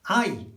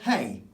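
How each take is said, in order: First: The word starts directly with a vowel. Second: The word starts with an h sound. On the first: The speaker calls it right. "H ... is always silent ... So that actually is ay" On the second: The speaker calls it wrong. "That says hey, okay? ... in English ... But they don't say hey"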